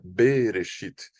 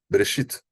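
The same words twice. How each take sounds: First: The first vowel is held full and long. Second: The first vowel is very quick and short. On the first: The speaker calls it wrong. "mas não é Bereshit" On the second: The speaker calls it right. "é bem rápido"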